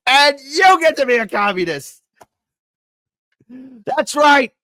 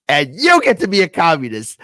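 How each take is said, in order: First: Much higher, loud hammed-up announcer screech; mock giveaway host at full pitch. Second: Loud, hammed-up announcer voice handing out prizes; mock giveaway host. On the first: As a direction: peak the giveaway, squeal it out. Giveaway parody at its peak. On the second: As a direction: belt it like a talk-show giveaway. Game-show giveaway parody, building.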